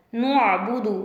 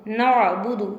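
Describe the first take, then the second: First: नुअबुदु with a heavy, rounded न as the mistake; teacher demonstrating the wrong नुअबुदु; wrong heavy noon. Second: नअबुदु with a light, clear न as the right way; teacher giving the correct नअबुदु; correct thin noon. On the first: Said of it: "ये गलत है।". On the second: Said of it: "क्या है सही?". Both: Shown as a demonstration.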